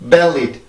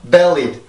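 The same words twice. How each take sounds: First: The first vowel is very short and narrow. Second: The same.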